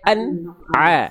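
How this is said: A short break separates the two syllables. The speaker calls it wrong. "jangan sampai an a, jangan sampai ada jeda"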